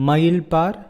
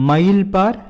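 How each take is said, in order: No difference in how they are said.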